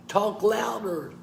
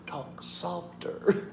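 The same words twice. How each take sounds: First: Raised, higher voice; pitched-up demonstration; talk louder demo. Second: Slow, near-whispered hush; very soft, drawn-out whisper; talk softer demo. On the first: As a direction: lift the voice up high to show louder. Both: Shown as a demonstration.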